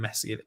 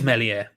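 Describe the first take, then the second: First: The name is said with a sounded s. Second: The name is said with a silent s. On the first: The speaker calls it wrong. "until I inevitably forget and call him Meslier" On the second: The speaker calls it right. "like French. So without sign"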